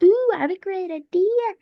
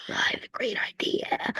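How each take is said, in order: First: Higher, eager mock delight; eager idea. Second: Soft conspiratorial whisper of a scheme. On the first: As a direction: pitch it up like a sudden brainwave. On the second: Acted. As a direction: hush it like a secret plan. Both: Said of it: "I don't know why I said it like that".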